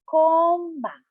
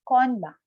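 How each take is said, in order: First: It is said slowly, syllable by syllable. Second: It is said at a normal, connected speed.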